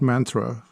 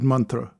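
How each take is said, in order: First: It uses the common, widespread pronunciation. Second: It uses a different, less common pronunciation. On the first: The speaker calls it wrong. "Not mantra, like how a lot of people say" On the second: The speaker calls it right. "but mantra"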